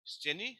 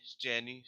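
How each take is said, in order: First: स्टेनी stressed on the last syllable, high and rising; स्टेनी, ending stressed, rising tune. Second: स्टेनी stressed on stay, falling; स्टेनी, stem stressed, falling tune; stress on the first syllable. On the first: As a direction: say स्टेनी with the weight on नी. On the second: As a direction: lean on stay in स्टेनी and let it drop. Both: Shown as a demonstration. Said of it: "stress देखो यहाँ पे".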